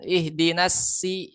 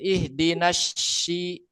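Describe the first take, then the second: First: The second word starts with a plain thin s. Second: The second word starts with a sh sound. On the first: "Tapi kalau masih pakai sin" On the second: "yang pakai shin"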